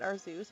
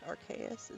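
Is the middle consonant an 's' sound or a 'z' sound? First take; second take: z sound; s sound. First: The middle consonant sounds like a z. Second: The middle consonant sounds like an s. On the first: This is the speaker's habitual way of saying it. The speaker calls it wrong. "I keep saying it, calling it Arzeus" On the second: This is the official way of saying it. The speaker calls it right. "Arceus is the proper terminology"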